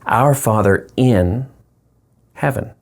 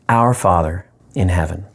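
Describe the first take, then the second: First: The stress falls on the word in. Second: The stress falls on the word our.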